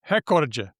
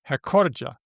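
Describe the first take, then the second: First: The stress is on the first syllable. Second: The stress is on the second syllable. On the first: "with the stress on the first syllable" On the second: "I normally I said it with the second syllable"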